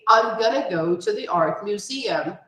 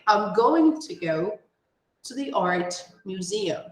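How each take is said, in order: First: Going to is reduced to a short gonna. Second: Going to is said fully, word by word.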